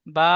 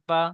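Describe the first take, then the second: First: বা with the vowel held long; drawn-out বা. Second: বা with a brief vowel; short বা. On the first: Teacher corrects the pupil's letter, drawn-out বা. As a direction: stretch out the vowel of বা. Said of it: "বা অক্ষরটি টান দিয়ে বলেন". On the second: Teacher models the joined syllable for pupil, short বা. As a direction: say বা short, no stretch. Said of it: "উচ্চারণটি টান হবে না". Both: Shown as a demonstration.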